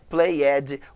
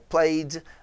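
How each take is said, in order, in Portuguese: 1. A terminação é pronunciada como uma sílaba 'ed' completa. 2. A terminação é pronunciada como uma consoante pura. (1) "Nunca fale walked, played, worked, que não existe isso" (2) "O ed nunca tem som de ed"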